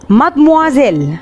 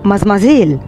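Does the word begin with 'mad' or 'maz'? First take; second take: mad; maz. First: The word begins with a clear mad sound. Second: The word begins with a maz sound. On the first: The speaker calls it right. "نطقها بالفرنسية هنسمعه دلوقتي" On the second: The speaker calls it wrong. "محدش يجي يقولي من هنا ورايح مازمازيل"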